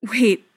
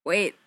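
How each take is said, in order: First: Loud, firm call to halt; stronger. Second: Faint croak of a word. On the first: Fili stops his brother walking away, stronger. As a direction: call it out with new strength. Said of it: "Fili says again, stronger". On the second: Fili tries to stop Keely leaving, croaking. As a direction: croak it out, barely managing the word. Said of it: "more of a croak than a word". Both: A narrator's reading.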